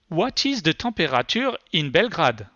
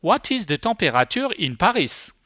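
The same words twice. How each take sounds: First: English with a heavy French accent, voice query; French-accented English, rolled French r in temperature; thick French accent. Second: French r and French vowels in temperature and Paris; thick French accent. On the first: Presenter asks the voice search, in thick French accent. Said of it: "speak English with my thick French accent". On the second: Presenter retries the voice search, in thick French accent. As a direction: repeat the query with a heavy French accent. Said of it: "I was working with a very thick accent". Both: Shown as a demonstration.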